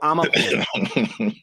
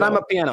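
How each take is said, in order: First: The first part is said as one word, 'ah-mah'. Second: The first part sounds like the words 'I'm a'. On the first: The speaker calls it right. "It's I'm a I'm a piano" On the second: The speaker calls it wrong. "It's not I'm a piano"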